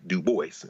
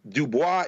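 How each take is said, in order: First: Put-on "Du Bois" said as "doo-BOYSS"; "Du Bois" the English way, sounding the final s; anglicized pronunciation. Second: "Du Bois" said as "doo-BWAH"; "Du Bois" with a silent s, like "bwah"; Latin pronunciation. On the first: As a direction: say "Du Bois" to rhyme with "voice". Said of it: "maybe you can say it's an anglicizer". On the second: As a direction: say "Du Bois" the French way, ending in "bwah". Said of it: "is the Latin pronunciation". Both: Shown as a demonstration.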